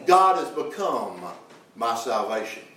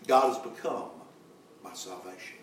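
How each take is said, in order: First: Said in the usual way. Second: Quietly echoing the line back to the church; hushed echo. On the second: Acted. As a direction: drop to a soft, near-silent repeat.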